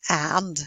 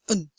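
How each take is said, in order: First: It is said with a full vowel. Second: It is said reduced, with a weak vowel. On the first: "We very rarely say and" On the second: "we say un"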